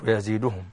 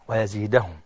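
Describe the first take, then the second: First: The vowel before -hum is a short u. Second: The vowel before -hum is a short a. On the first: The speaker calls it wrong. "مش ويزيدهم" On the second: The speaker calls it right. "ويزيدهم مرتين في القرآن فقط بالفتح"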